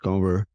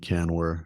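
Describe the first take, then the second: First: The vowel before the n is nasalized. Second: The n is a plain, full consonant. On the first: This is the name's proper pronunciation. The speaker calls it right. "it's cover. ... the N is nasal" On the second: This is how people around him usually say it. The speaker calls it wrong. "People call me Canwer"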